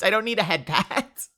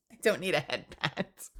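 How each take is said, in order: First: Loud, higher-pitched objection; emphatic mock complaint; mock protest. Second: Quieter protest after a chuckle; softened, laughing objection; amused repeat. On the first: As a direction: push back in playful indignation. Protesting unwanted praise. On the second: Real, not acted. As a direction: say it again lightly, through amusement.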